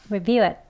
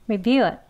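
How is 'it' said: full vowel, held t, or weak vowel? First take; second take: weak vowel; weak vowel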